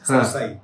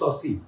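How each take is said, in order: First: The name is said like 'sab-sai'. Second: The name is said like 'saucy'. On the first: The speaker calls it wrong. "people pronounce it as Sabsai" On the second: The speaker calls it right. "It is Saucy"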